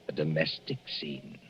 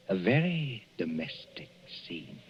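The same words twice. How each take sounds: First: Said in the usual way. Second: "very" leaned on with dry irony; wry emphasis on "very"; stress on very. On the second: Acted. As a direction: hit "very" with quiet sarcasm. Narrator repeats with irony.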